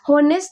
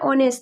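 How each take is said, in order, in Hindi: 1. यह शब्द साफ़ सुनाई देने वाले एच से शुरू होता है। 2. यह शब्द स्वर से शुरू होता है, एच नहीं है। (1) "लेकिन होनेस्ट नहीं पढ़ रहे हैं" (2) "हम इसको पढ़ रहे हैं ऑनेस्ट"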